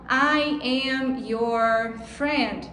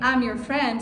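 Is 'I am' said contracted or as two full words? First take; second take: full; contracted. First: I am is said as two full words. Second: I am is contracted into one quick syllable. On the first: "se a gente ficar na cabeça só I am your friend" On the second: "quando alguém falar assim"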